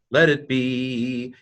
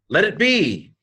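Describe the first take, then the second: First: Measured teaching pace on Let it be; slow, deliberate. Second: Said in the usual way. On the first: Shown as a demonstration. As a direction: Let it be spelled out slowly. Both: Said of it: "teacher repeats translation".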